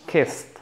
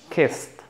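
First: The vowel is a short 'i' sound. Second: The same.

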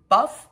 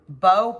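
First: The word ends with an f sound. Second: The word ends in an open vowel. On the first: "I say buff because it ends in G-H" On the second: "I don't know if I'm saying it right. Bow"

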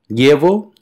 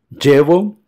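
First: The ll sounds like a palatal ly sound. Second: The ll sounds like an English j sound. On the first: "equivalente al L H del portugués" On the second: "como un D J do portugués"

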